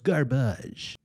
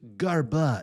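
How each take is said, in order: First: It is said with a French accent. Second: It is said with a plain English accent.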